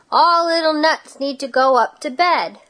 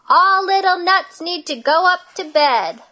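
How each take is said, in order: First: The voice is bigger and louder. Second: The voice is biggest and loudest. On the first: "in her bigger voice" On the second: "in her biggest voice"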